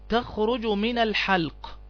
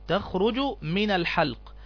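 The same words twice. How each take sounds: Both takes have the same delivery.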